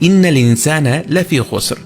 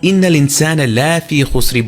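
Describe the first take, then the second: First: The vowel in 'la' is kept short. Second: The vowel in 'la' is drawn out long. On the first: The speaker calls it right. "লামুত তাকিদের লায়ের শেষে কোনো টান নেই" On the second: The speaker calls it wrong. "ইন্নাল ইনসানা লাফি খুসরি বলি না"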